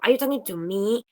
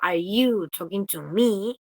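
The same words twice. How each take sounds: First: The word "me" carries the strong stress. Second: The word "you" carries the strong stress. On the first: The speaker asks whether they, rather than someone else, are addressed. "estoy contrastando el me con cualquier otra persona" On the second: The speaker challenges the listener's right to address them. "Yo estoy contrastando como yo con vos"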